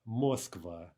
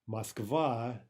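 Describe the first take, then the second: First: The stress is on the first syllable. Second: The stress is on the second syllable. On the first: The speaker calls it wrong. "The incorrect version would be Moskva" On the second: The speaker calls it right. "Moskva is correct. ... the stress is on the second syllable"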